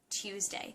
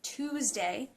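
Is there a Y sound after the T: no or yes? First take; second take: yes; no. First: The T is followed by a Y sound. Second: The T is followed directly by an oo sound. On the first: "Actual pronunciation is meant to have the Y sound in it" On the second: "Some people pronounce it Tuesday"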